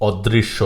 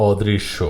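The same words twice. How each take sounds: Both takes have the same delivery.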